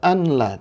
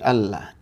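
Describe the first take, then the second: First: The n is pronounced separately before the l. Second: The n merges into a doubled l sound. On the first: The speaker calls it wrong. "Ini nggak boleh dibaca an la" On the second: The speaker calls it right. "tapi Allah"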